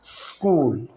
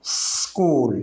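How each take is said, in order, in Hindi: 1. खिंची हुई सीटी जैसी s सीधे k में मिल जाती है। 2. खिंची हुई सीटी जैसी s सीधे k में मिल जाती है।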